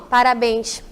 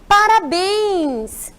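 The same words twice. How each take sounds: First: It is said flatly, without enthusiasm. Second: It is said with lively, exclamatory enthusiasm. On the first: The speaker calls it wrong. "eu não posso dizer assim" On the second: The speaker calls it right. "Qual é o sinal que eu vou utilizar para ele ficar parabéns?"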